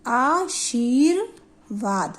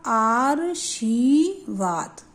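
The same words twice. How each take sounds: First: आशीर्वाद very slowly, r after the long shee: aa-sheer-vaad; correct pronunciation. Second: आशीर्वाद said wrongly as aar-shee-vaad, very slowly, r before shee; misspelling sounded out. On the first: Teacher models the correct word for pupils, slowly broken up as aa-sheer-vaad. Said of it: "ये आपका सही शब्द हुआ". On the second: Teacher shows what the wrong spelling says, slow aar-shee-vaad. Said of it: "तो ये शब्द क्या हुआ". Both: Shown as a demonstration.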